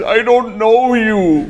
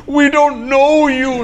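First: A high, slow, frightened squeak, hammed up; panicked denial. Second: A much higher, slow, shrieking mock-panic; frightened wife. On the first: Scared stranger denying to the homie, panicked squeak. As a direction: clutch your chest and squeal it slowly. All paniqueado. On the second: Wife clutching her kid answers the homie, mock-panicked squeal.

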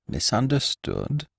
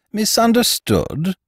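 First: Soft, slow, puzzled echo; puzzled murmur. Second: High, slow incredulous rise. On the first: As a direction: murmur the word, bewildered. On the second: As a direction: echo it in disbelief. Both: Acted.

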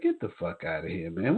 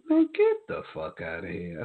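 First: Said in the usual way. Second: Squeaked-up retold disbelief. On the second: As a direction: re-enact stunned disbelief way up high. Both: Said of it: "just said it just like that".

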